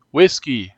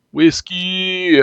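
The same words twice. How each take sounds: First: Said in the usual way. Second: Calling the name much higher with delight; overjoyed call to the cat; joyful cry. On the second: Acted. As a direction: cry out her name like a long-lost friend.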